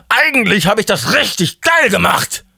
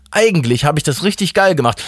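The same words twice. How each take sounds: First: Euphoric boast. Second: Raised, moderately excited self-praise; pleased realisation. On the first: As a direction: crow it in manic self-congratulation. God repeats self-praise, far higher. (euphorisch überdreht, hoch und gedehnt) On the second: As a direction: arrive at it with growing pride. God's first, milder self-praise. (angeregt, mit erhobener Stimme) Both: Acted.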